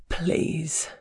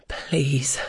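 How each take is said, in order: First: Weak cracking voice. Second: Breathless whisper; whispered plea. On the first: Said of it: "voice weak and cracking with the effort". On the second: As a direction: plead in a ragged whisper. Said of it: "stammer out between ragged pants". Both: Acted.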